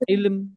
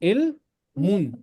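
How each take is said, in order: First: The word stops abruptly on the final m. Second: The word ends with a full -un syllable. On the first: "ये साकिन बनेगा। ... ये ऐसे पढ़ा जाएगा।" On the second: "जब मैं मीम पे रुक रहा हूं ना, तो ये मुन नहीं बनेगा"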